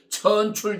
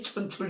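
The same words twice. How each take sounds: First: The first vowel is drawn out long. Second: The first vowel is said short. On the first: The leader is of lowly birth. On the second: The leader was sent by heaven.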